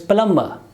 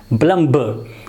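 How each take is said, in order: First: No b sound is heard after the m. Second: A forceful b sound is heard after the m. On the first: The speaker calls it right. "it will not be pronounced" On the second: The speaker calls it wrong. "we pronounce ba and with force"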